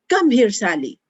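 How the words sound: It sounds commanding and bossy. "for commanding or bossy"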